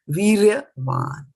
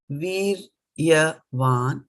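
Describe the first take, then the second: First: The word is said as one joined unit. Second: The word is split into separate syllables.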